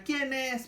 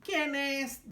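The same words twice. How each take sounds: First: A higher, lightly voiced granny asking who is at the door; grandma asking. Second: A higher mock granny voice from the wolf; the wolf faking grandma, pitched up; wolf imitating grandma. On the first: Grandmother answering the wolf's knock, higher voice. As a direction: ask it as the old grandmother, pitched up. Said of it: "pregunta la abuelita". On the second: Wolf pretending to be grandma for Caperucita, mock high granny. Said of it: "dice el lobo imitando la voz de la abuelita".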